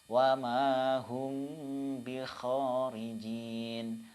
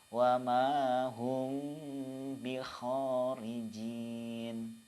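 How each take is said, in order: The two takes are said the same way.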